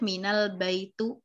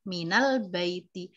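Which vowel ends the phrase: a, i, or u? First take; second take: u; i. First: The phrase ends with a u vowel. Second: The phrase ends with an i vowel. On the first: The speaker calls it wrong. "salah besar" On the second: The speaker calls it right. "dia harus berharokat kasroh"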